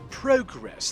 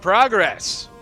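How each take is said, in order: First: It is said in an imitated Canadian accent. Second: It is said in a plain American accent.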